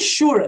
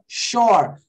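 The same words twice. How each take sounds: First: The vowel does not sound like 'or'. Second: The vowel sounds like 'or'. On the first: The speaker calls it wrong. "Não é sure" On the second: The speaker calls it right. "é sure. Tem som de or"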